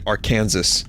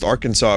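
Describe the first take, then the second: First: The name is pronounced just as it is spelled. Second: The name is pronounced the usual American way. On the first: Someone unfamiliar with the name read it from the spelling. The speaker calls it wrong. "she pronounced it Arkansas ... It's spelled that way" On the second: This is how people raised in the country say it. The speaker calls it right. "we know it's pronounced Arkansas if you grew up in the U S"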